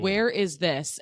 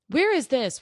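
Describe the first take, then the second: First: Matter-of-fact, close to usual talk; blunt question. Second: Higher-pitched mock customer question; imitated customer. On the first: Retold or imitated. Traveler asking staff for directions, blunt. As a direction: ask it bluntly, no fuss. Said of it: "I'm a very blunt person". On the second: Customer asking staff for directions, lightly mimicked. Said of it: "have to be the customer service".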